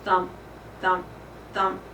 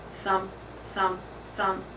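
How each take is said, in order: Both takes have the same delivery.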